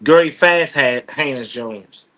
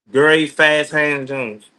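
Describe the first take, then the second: First: Said in the usual way. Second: "Gary Fast Hands Jones" spelled out slowly, every word weighted; slow emphatic introduction of "Gary Fast Hands Jones"; slow, deliberate full name. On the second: Shown as a demonstration.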